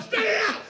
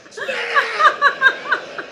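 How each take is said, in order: First: Higher, louder command, laughing through it; a chef snapping "spit it out"; yell at the dieter. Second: Very slow, much louder and higher; drawn-out yell. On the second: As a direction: stretch the words into a huge yell. Chef yelling at dieter. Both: Acted.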